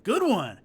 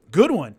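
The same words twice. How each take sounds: First: Loud "Good one" from the big fighter; imitating the opponent's loud compliment again; mock growl from opponent. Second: Loud, punchy "Good one" from a giant fighter; imitating the opponent's loud grudging compliment; mock growl from opponent. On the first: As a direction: bark the grudging praise. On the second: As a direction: bark the praise right in his ear. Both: And he goes.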